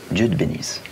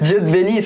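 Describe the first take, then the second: First: It is said in a grave, serious tone. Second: It is said with laughter in the voice. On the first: "Le sérieux" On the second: "Le rire"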